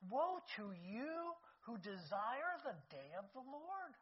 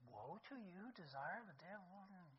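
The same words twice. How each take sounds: First: Slow, weighty proclamation of Woe; slow scripture reading. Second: Much softer, hushed echo of Woe to you; quiet repeat. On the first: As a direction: draw out each word, Woe stretched and heavy. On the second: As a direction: say it again softly, to yourself. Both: Shown as a demonstration. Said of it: "he says".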